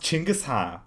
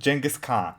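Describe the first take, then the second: First: The name begins with a 'ch' sound. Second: The name begins with a soft 'j' sound. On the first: The speaker calls it right. "his name is pronounced Chinggis Khan, you know, with a C H" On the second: The speaker calls it wrong. "He did not just pronounce it Genghis Khan"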